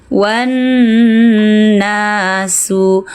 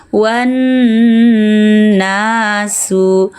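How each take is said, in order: No difference in how they are said.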